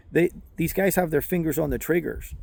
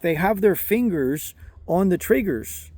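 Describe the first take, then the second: First: Said in the usual way. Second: "their fingers on the triggers" spelled out slowly, a touch higher; slow it down so he gets it; patient slower repeat for a non-native listener; slow clarifying repeat. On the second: Retold or imitated. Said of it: "So he's clarifying".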